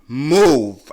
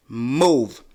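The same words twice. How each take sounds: First: Loud barked order; hooting at a driver. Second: Loud repeated order; second hoot. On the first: Driver blocking the road, loud hoot of an order. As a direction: shout it at the car. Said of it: "I hooted at her". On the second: Leaning out the window at the driver, loud order. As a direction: shout it again, a bit less. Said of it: "I'm like". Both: Retold or imitated.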